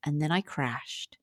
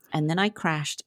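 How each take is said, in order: First: Slow, soft and heavy; quiet and slow. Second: Said in the usual way. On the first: Shown as a demonstration. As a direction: let it drop quietly.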